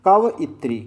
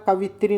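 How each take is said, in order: First: It is said as 'kavayitri' with a 'yi' sound. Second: It is said as 'kavitri' with no 'yi' sound. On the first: The speaker calls it right. "बल्कि कवइत्री" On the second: The speaker calls it wrong. "कवित्री नहीं होता"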